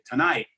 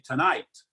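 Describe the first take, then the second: First: The final T is a glottal stop, New York-like. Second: The final T is clearly released.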